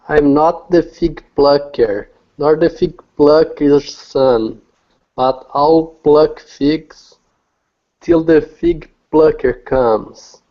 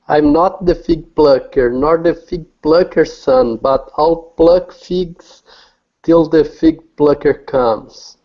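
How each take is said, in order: First: It is said at a normal pace. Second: It is said as fast as possible.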